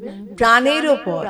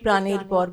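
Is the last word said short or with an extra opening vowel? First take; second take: extra vowel; short. First: The last word is said with an opening vowel. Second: The last word is said short, without an opening vowel. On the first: The speaker calls it right. "ওখানে রয়েছে একটা ঊর্ধ্ব কমা রয়েছে" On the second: The speaker calls it wrong. "অনেকে সেই জিনিসটা ... বলে"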